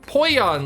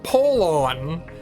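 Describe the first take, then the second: First: The middle consonant is a y sound. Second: The middle consonant is an l sound. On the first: The speaker calls it wrong. "like in Spanish. No, apparently not" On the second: The speaker calls it right. "now you say it like Polon"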